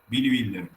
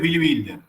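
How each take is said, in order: First: The surname begins with a B sound. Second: The surname begins with a W sound. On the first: This is the proper pronunciation. The speaker calls it right. "Bilder se pronuncia" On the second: This is how the other person said it. The speaker calls it wrong. "el que vos decís es Billy Wilder"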